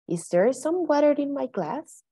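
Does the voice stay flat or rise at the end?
rise. The voice rises at the end. The speaker calls it right. "Good intonation"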